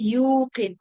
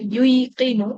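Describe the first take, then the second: First: The k follows 'yu' directly, with no extra vowel. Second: An extra 'i' vowel comes before the k. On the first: The speaker calls it right. "Smooth করার জন্য বলবো" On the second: The speaker calls it wrong. "বলতে কিন্তু একটু বেগ পেতে হচ্ছে"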